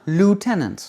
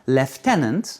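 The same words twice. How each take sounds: First: It is said in an American accent, without an F. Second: It is said in a British accent, with an F sound. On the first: "Et en américain" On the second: "En anglais britannique"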